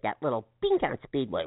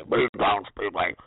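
First: Said in the usual way. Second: Monster truck ad. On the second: Retold or imitated. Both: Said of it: "I love that last little bit".

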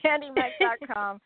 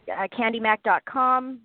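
First: Laughing through candy mac dot com. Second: Said in the usual way. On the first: Real, not acted. Repeats website, laughing.

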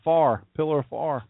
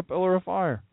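First: Downstate Delaware accent. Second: Said in the usual way. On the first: Shown as a demonstration. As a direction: flatten "fire" into "far", downstate Delaware style. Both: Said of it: "as we'd say downstate Delaware".

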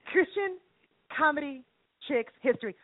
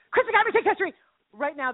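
First: Spaced-out words, pause after each; measured, piece-by-piece title announcement; deliberate announcement. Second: Fast, higher-pitched title announcement; quick excited run-through; rapid-fire repeat. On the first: Announces title, then repeats it faster. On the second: Same title repeated faster. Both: Acted.

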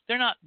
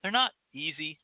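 First: "not" jumps higher and louder; stress on not. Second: Said in the usual way. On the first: Shown as a demonstration. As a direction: punch the word "not". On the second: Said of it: "They're not primers".

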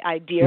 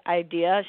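First: Put-on Boston accent. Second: Said in the usual way. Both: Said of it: "she couldn't say the word idea".

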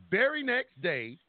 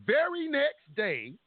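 First: Said in the usual way. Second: Very slow, much higher, leaning on very; emphatic. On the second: Shown as a demonstration. Stressing the day after the standoff, slow and high. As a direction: stretch out very next day for effect.

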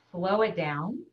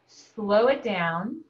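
First: Said in the usual way. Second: Drawn out slowly, each word stretched; slow it down as you say it. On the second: Shown as a demonstration.

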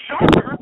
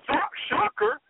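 First: Shocker yelled out, much louder; shouted name. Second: Said in the usual way. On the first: Acted. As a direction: bellow Shocker like a ring announcer. Hyping his buddy's name.

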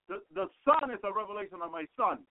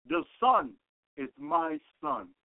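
First: Said in the usual way. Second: "is my Son" drawn out slow and deliberate; slow and solemn. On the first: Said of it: "he didn't say to me". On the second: Shown as a demonstration. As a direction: weigh every word of "The Son is my Son". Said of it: "This is how he said it to me".

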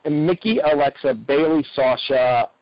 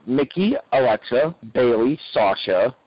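No difference in how they are said.

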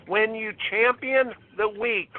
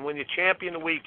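First: Slow, deliberate, weighty delivery; slow emphatic maxim. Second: Fast, lower throwaway repeat; quick repeat. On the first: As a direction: lean on champion and weak, spaced out. Slogan delivered slowly for emphasis. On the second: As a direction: rush the line again under the breath. Slogan repeated quickly, quieter. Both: Real, not acted.

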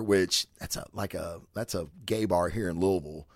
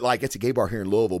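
First: Hushed, half-whispered aside. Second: Said in the usual way. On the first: Real, not acted. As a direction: drop the voice to a near whisper. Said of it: "I don't know why I whispered that". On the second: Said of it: "Why did I whisper that?".

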